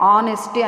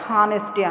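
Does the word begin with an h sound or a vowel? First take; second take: vowel; h sound. First: The word begins with a vowel, no h. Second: The word begins with an audible h sound. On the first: The speaker calls it right. "ఆనెస్టీ అని పలకాలి" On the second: The speaker calls it wrong. "హానెస్టీ అనకూడదు"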